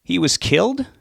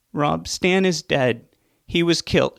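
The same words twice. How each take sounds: First: Higher, louder stunned disbelief with a rise on killed; can't believe what he hears; shocked question. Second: Higher, slow, grief-stricken cry; crying out in pain. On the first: Son stunned by news. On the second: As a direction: break the news through pain. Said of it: "she cried out in pain". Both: Acted.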